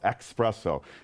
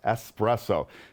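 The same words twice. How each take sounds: First: It begins with an 'ex' sound, like express. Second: It begins with an 'es' sound, no k. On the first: The speaker calls it wrong. "that word is going to be espresso" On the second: The speaker calls it right. "So remember, it's espresso"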